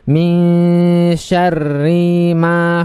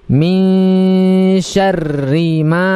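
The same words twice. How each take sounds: First: The vowel in ri is drawn out long. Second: The vowel in ri is kept short. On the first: The speaker calls it wrong. "memanjangkan ri itu" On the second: The speaker calls it right. "tidak dipanjangkan"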